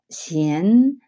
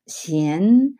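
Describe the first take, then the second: First: The syllable is said in the second tone. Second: The syllable is said in the second tone.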